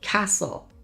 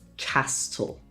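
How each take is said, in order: First: No T sound is pronounced in the middle. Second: A T sound is pronounced in the middle. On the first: The speaker calls it right. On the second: The speaker calls it wrong.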